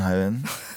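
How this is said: The greeting sounds weary and low in energy. The speaker is worn out that day. "hvis jeg er litt sliten en dag"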